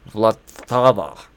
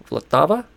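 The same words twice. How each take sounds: First: Vlatava said slowly, savoring each syllable; drawn out Vlatava with heavy V; playful pronunciation. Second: Vlatava with rising, unsure tune; questioning pronunciation. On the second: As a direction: try Vlatava again as a question. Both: Shown as a demonstration. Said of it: "That's fun to say no matter what".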